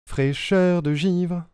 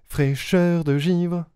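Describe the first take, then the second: No difference in how they are said.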